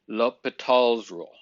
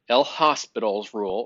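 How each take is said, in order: First: The name is said the French way. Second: The name is read the English way. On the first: The speaker calls it right. "It is French" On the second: The speaker calls it wrong. "we don't pronounce it as El Hospital's rule"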